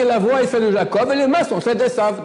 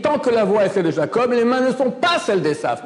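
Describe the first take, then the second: First: "mains" and "sont" stated firmly without a negation; correct reading. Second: Mock the misquote by raising it and hitting "pas"; wrong reading. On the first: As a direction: read "les mains sont celles d'Esav" as the true text, firm and a little high. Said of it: "C'est marqué". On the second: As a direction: stress on pas, the wrong reading pressed high. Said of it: "Mais c'est faux, c'est pas marqué comme ça". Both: Shown as a demonstration.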